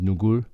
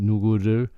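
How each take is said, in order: First: The last two syllables merge into one. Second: All three syllables are said separately.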